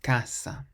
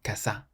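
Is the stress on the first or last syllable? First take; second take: first; last. First: The stress is on the first syllable. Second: The stress is on the last syllable. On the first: The speaker calls it right. "we stress the first part of the word" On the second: The speaker calls it wrong. "not the end"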